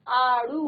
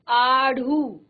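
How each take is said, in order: First: The middle flap consonant is unaspirated. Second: The middle flap consonant is aspirated. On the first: The speaker calls it right. "आड़ू होता है" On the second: The speaker calls it wrong. "आढ़ू नहीं होता"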